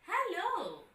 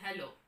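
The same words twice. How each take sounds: First: The hello sounds bright and cheerful. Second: The hello sounds low and downcast. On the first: The speaker is in a very good mood. "you're in a very, very good mood" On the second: The speaker is in a low mood. "it feels you're a little down"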